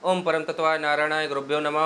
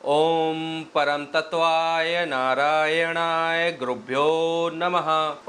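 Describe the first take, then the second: First: The mantra is recited quickly and hurriedly. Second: The mantra is recited slowly and evenly. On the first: The speaker calls it wrong. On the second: The speaker calls it right.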